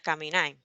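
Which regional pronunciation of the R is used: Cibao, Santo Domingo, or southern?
Cibao. The r is said the Cibao way. "en el Cibao se diría caminar"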